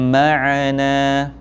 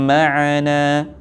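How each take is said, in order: Both takes have the same delivery.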